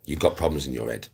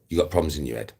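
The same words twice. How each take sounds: The two takes are said the same way.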